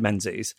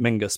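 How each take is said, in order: First: The name is said with a z sound. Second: The name is said with a g sound. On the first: "I think you said Menzies" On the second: "you might pronounce it Mingus"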